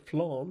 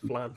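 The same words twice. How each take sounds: First: The vowel is lengthened, American-style. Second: The vowel is short and plain.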